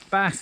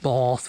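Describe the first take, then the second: First: Bath is said in a common accent. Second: Bath is said in a posh accent.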